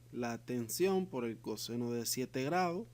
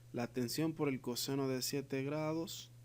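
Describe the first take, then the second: The two takes are said the same way.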